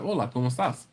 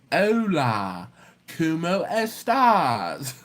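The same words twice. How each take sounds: First: Said in the usual way. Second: Slow, stretched mock Spanish accent; hammed-up Spanish accent, long drawn syllables; exaggerated Spanish accent. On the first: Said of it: "that's not how I sound". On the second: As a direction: overdo the Spanish accent, dragging each vowel. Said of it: "I need to speak Spanish like this".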